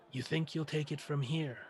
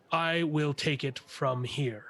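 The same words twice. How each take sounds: First: Softer, scornful echo of his words; mocking retort. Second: Slow, measured officer's command; firm authority. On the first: Militia leader to Blaine, a quiet mocking echo. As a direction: throw his phrase back with a sneer. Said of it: "turns and says". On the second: Acted. Blaine to the militia leader, a slow firm claim of command. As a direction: lay down rank calmly and slowly. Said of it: "Blaine says".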